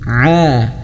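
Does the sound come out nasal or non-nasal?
non-nasal. The sound is clear, not going through the nose. The speaker calls it right. "Kalau yang tidak masuk hidung yang betul"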